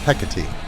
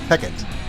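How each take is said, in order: First: The name is said the classical way. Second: The name is said the Shakespearean way. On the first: The speaker calls it right. "the classical pronunciation" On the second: The speaker calls it wrong. "Shakespeare referred to this Greek goddess as Hecate"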